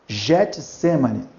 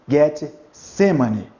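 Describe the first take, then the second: First: It begins with a soft J-like sound. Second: It begins with a hard G sound. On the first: The speaker calls it wrong. "Getsemane, não" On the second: The speaker calls it right. "Seria Get, Shemane. Getsemane"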